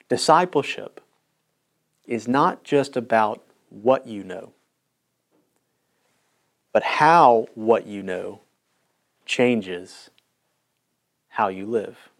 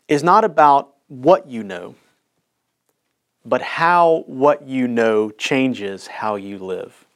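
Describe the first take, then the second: First: It is said slowly. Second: It is said at normal speed.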